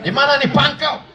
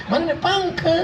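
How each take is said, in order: First: Firm, high, no-nonsense question. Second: Mock coquettish. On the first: Showing mothers how to talk on the phone, firm. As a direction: ask it briskly, with no sweetness. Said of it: "harus tegas". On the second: Showing mothers how not to answer the phone, mock flirtatious. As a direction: coo it with exaggerated sweetness. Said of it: "Gitu, jangan". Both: Shown as a demonstration.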